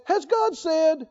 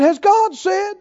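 First: Slow, drawn-out questioning; defiant question. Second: Mock the question, higher and sneering; defiant sneer. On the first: Retold or imitated. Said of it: "Is it the same tone as". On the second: Preacher voicing the serpent questioning God, defiant.

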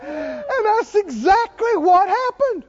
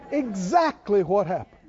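First: Much higher, slow, laughing exclamation; exultant. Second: Said in the usual way. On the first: Real, not acted. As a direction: crow it in triumph.

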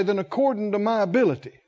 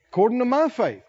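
First: Rushed wrong version. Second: According to my faith, pitched high with my lifted; stress on my. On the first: Pretend. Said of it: "he might say". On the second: Shown as a demonstration. Preacher lifts my in According to my faith. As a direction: raise the pitch on my and lean on faith. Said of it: "he could have said".

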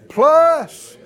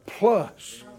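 First: Plus flung out loud and high; shouted plus. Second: Said in the usual way. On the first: Shown as a demonstration. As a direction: hit Plus like a hammer blow.

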